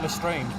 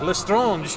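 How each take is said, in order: First: The name is said with English pronunciation. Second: The name is said with French pronunciation. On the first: This is how the films say it. "in the movies it's" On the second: This is how it sounded when reading the books. "I'd always try to put like a French accent on it"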